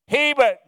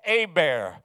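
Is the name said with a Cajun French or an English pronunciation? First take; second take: English; Cajun French. First: The name is pronounced the anglicized English way. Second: The name is pronounced the Cajun French way. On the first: An outsider who doesn't know the name says it. The speaker calls it wrong. "they mispronounced every one" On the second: The name's owner gives its proper form. The speaker calls it right. "No, it's Hebert"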